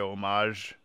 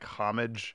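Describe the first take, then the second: First: It is pronounced in a French-sounding way. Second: It is pronounced in an English-sounding way. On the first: The speaker calls it right. "that's how the French say it" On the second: The speaker calls it wrong. "I hate people saying like homage"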